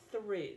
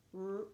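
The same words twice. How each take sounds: First: Said in the usual way. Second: THREW pulled apart as TH, R, OO; sounded out. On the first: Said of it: "was the word". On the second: Shown as a demonstration. Teacher counting three sounds in a word, sounded out. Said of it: "The three sounds".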